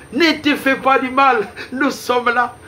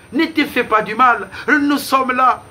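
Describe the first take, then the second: The two takes are said the same way.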